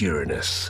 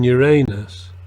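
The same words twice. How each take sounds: First: Uranus is said in the standard way. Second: Uranus is said in the schoolboy joke way. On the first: The speaker calls it right. "thanks for pronouncing it correctly" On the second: The speaker calls it wrong. "the giggling schoolboy of the other way of pronouncing it"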